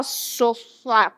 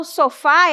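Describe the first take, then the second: First: SOFÁ said inward with a muffled, closed A; wrongly closed, drawn-in "sofá"; closed, swallowed vowel. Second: SOFÁ with a wide-open stressed A; open vowel sound. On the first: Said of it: "para dentro". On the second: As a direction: send the final A of "sofá" outward, fully open. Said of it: "É um som aberto". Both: Shown as a demonstration.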